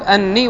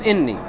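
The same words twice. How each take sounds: First: Anni, first vowel open a; fatha on anni. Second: Inni, first vowel i; kasra on inni. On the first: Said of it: "فإما أن تكتب أني". (فتح همزة أنّي) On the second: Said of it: "وإما أن تكتب إني". (كسر همزة إنّي) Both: Shown as a demonstration.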